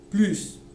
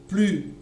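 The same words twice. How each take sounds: First: The word ends with an s sound. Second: The final s is silent. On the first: "il y a le S" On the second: "il n'y a pas de S"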